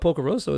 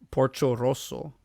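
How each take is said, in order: First: The middle consonant is a hard k sound. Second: The middle consonant is a ch sound. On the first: The speaker calls it wrong. "I guess I'm saying it wrong" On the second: The speaker calls it right. "the C O in Italian is supposed to be like a C H O"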